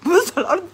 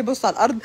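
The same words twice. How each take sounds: First: Pitched up in disbelief; mock shocked echo; high incredulous repeat. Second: Said in the usual way. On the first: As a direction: throw it back at him shocked. Raised repeat.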